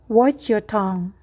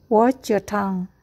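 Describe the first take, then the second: The two takes are said the same way.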